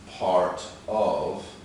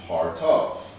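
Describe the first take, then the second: First: The two words are said separately. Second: The two words are run together quickly.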